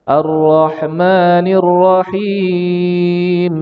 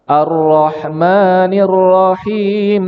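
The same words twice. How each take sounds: First: The long vowel in Rahim lasts four beats. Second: The long vowel in Rahim lasts two beats. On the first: "Boleh empat harokat" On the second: "Boleh dua harokat"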